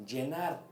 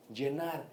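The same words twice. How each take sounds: The two takes are said the same way.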